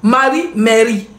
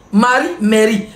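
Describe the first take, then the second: First: Marie, mairie said slowly, each word set apart; careful contrast. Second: Said in the usual way. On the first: Shown as a demonstration. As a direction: spell out Marie, then mairie, like a slow lesson. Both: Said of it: "quand on dit mairie".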